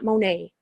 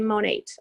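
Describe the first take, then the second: First: The T sound is left silent. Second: The T sound is clearly pronounced. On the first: The speaker calls it wrong. "It's not Monet" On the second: The speaker calls it right. "you do say Monate. You say the T"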